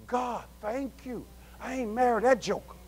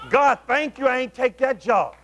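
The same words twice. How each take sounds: First: Hushed relieved thanks. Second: Said in the usual way. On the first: Acted. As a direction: breathe it out softly, as if privately to God. Acting out private relieved thanks.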